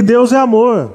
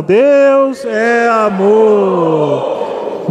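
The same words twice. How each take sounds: First: Said in the usual way. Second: DEUS, É and AMOR each stretched very long; long, sustained call to the congregation; led congregational declaration. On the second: Shown as a demonstration. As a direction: proclaim it extremely slowly, holding every word for the church to join. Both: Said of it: "Vamos falar, irmão".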